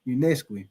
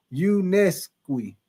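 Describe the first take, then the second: First: Said in the usual way. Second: Unesqui stretched slowly, syllable by syllable; sounding it out. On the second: Shown as a demonstration. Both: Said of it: "You say it's pronounced".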